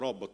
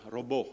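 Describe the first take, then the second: First: The word is said without a French pronunciation. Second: The word is said with a French pronunciation. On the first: The speaker calls it right. "pronunciato robot" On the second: The speaker calls it wrong. "robot alla francese"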